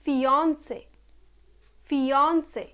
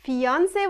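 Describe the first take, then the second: First: Fiance said fee-ON-say, rounded o; correct pronunciation. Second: Fiance said fee-AAN-se with open aa; common mispronunciation. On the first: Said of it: "it's not fiance, it's". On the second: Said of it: "it's not fiance". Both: Shown as a demonstration.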